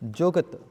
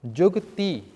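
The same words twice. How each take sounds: First: Jugat with a short, unstressed final vowel; short ending on Jugat. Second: Jugati ending in a full long ee. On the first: Teacher reads out the word as written, short ending on Jugat. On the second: Teacher shows the verb form, long ee on Jugati. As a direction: sound the end of Jugati as a long ee. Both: Shown as a demonstration. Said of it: "sihari becomes a bihari".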